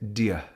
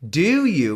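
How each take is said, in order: First: The words blur into one reduced syllable. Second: Both words are said fully and clearly. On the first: The speaker calls it right. "We say" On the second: The speaker calls it wrong. "We don't say"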